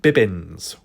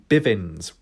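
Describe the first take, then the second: First: The middle consonant is pronounced as a B. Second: The middle consonant is pronounced as a V. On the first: "with a B, a double B" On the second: "with a V, V"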